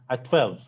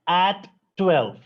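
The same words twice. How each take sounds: First: The two t sounds merge into one t. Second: Both t sounds are pronounced separately. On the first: The speaker calls it right. "Not two ters, but one ter" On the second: The speaker calls it wrong.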